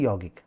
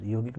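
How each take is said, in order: First: यौगिक said as "yaugik", with an open au; the right way, यौगिक with a full au vowel; correct pronunciation. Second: यौगिक said as "योगिक", with a plain o; the wrong way, यौगिक with a short o vowel; wrong pronunciation. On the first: (यौगिक का सही उच्चारण, "औ" खोलकर) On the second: (यौगिक को "योगिक" उच्चारण, गलत तरीका) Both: Shown as a demonstration. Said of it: "यौगिक नहीं".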